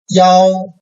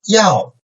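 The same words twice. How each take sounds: First: The pitch stays high and level. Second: The pitch falls sharply from high to low.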